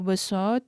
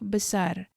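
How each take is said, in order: First: The second syllable ends in an a sound. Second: The second syllable ends in an ar sound. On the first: "or A in the second syllable" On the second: "instead of besar"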